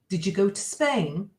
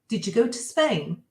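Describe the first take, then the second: The two takes are said the same way.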